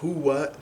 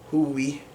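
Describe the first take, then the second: First: The word is said in the standard form. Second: The word is said in the dialect form. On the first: "Instead of huwa" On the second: "they might say huwi"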